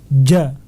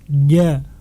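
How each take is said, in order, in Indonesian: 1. Huruf j kuat, jelas, dan terhenti dengan tegas. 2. Huruf j lemah dan bunyinya terus mengalir. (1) "Harus dibaca dengan jelas" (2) "aliran suaranya masih mengalir dikarenakan lemah"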